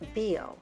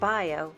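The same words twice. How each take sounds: First: It is said with French pronunciation. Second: It is read with English spelling sounds. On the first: The speaker calls it right. "the way that you say organic in French is bio" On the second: The speaker calls it wrong. "instead of pronouncing it bio"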